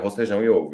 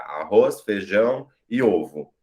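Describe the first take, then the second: First: There is no pause after the first word. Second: There is a pause after the first word. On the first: "porque senão eu falaria" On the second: "ela tá ali representando essa pausa que eu falo"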